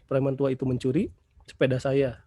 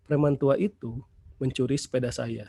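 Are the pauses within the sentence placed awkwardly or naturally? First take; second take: awkwardly; naturally. First: Pauses fall in odd places inside phrases. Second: Pauses fall only between natural phrases. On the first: The sentence is hard to understand. The speaker calls it wrong. "kan kita tidak membacanya seperti itu" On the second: The sentence is easy to understand. The speaker calls it right. "kita membacanya sesuai dengan konstruksi ini"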